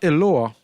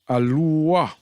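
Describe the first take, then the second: First: The first vowel is an E sound. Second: The first vowel is an A sound. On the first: The speaker calls it wrong. "So it's not Eloah" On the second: The speaker calls it right. "it's A"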